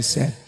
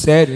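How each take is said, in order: First: Said in the usual way. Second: Louder, disbelieving "Sério?" with a falling end; surprised question. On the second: Retold or imitated. Adventist worker hearing no Saturdays, surprised "Sério?". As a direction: ask "Sério?" as if it can't be true. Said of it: "Eu disse".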